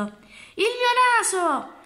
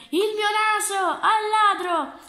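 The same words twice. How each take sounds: First: Long, drawn-out wail, much higher and slow; anguished cry. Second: High, loud, urgent shout; shouting for help. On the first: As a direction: cry out in horror at the mirror. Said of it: "si guardò allo specchio e gridò". (grido lungo e disperato, molto acuto e lento) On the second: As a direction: call out as if chasing a thief. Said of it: "gridò il signore". (grido acuto e forte di chi chiede aiuto) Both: Acted.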